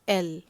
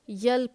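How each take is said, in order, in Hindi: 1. यह सीधे स्वर ध्वनि से शुरू होता है। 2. यह स्वर से पहले य ध्वनि से शुरू होता है। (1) "इसका सही उच्चारण होता है एल" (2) "बहुत लोग इसको यल पढ़ते हैं जो कि गलत है"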